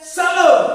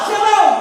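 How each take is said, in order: First: It is said flatly, without a smile. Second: It is said cheerfully, while laughing.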